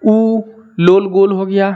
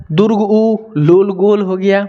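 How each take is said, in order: First: Short उ with lips rounded; clipped short उ, lips rounded into a circle; short u demo. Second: Long drawn-out दीर्घ उ with rounded lips; long u demo. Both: Shown as a demonstration. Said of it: "आप बोल के देखो".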